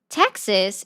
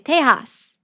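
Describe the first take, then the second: First: The name is said with an English pronunciation. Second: The name is said with a Spanish pronunciation. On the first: The speaker calls it wrong. "It's not Texas" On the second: The speaker calls it right. "Texas is really Tejas"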